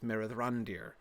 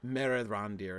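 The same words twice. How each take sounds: First: The stress falls on the 'ran' syllable. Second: The stress falls on a syllable other than 'ran'. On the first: The speaker calls it right. "it's Merethrandir" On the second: The speaker calls it wrong. "So it's not"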